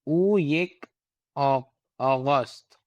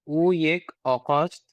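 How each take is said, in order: First: The middle consonant is a soft g sound. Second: The middle consonant is a hard q sound. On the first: "ग आएगा ना" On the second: "तलफ़ुज़ करना चाहते हैं तो वही काफ से"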